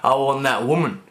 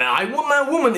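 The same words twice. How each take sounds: First: Said in the usual way. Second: "that" pitched much higher in "I want that woman"; stress on that. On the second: Shown as a demonstration. Contrasting the ad's lure, stressing "that". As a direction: lift "that" high and lean on it. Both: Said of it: "a hell of a lot different from".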